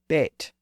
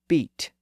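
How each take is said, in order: First: The vowel is pronounced lower in the mouth. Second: The vowel is pronounced higher in the mouth. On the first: This is the older pronunciation. "Some people still called it a bete" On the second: This is the newer pronunciation. "started to pronounce that vowel a little bit higher"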